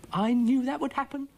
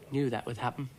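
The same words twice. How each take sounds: First: High, loud grumpy echo; Dougal's voice. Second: Said in the usual way. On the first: A narrator's reading. Dougal echoes Florence's remark, high, loud and grumpy. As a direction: echo her crossly, much higher and louder. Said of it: "said Dougal". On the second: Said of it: "said Florence".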